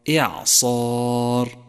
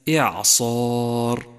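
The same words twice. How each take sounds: Both takes have the same delivery.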